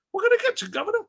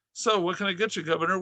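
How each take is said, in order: First: Very high, cute British accent. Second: Said in the usual way. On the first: Shown as a demonstration. Concession clerk to the governor, cute British accent. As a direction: squeak it in a hammed-up British accent. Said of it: "said it with a British accent". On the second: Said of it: "would be cuter if I said it".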